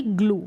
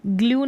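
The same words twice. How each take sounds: First: ग्लू as "gloo", no glide; oo pronunciation. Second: ग्लू misread as "glyoo"; wrong yoo pronunciation. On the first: Teacher giving the right reading, ग्लू as "gloo". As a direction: say ग्लू with a clean "oo". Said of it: "क्या पढ़ेंगे?". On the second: Teacher warning against a misreading, ग्लू as "glyoo". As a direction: add a y-glide to ग्लू. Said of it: "नहीं पढ़ेंगे". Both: Shown as a demonstration.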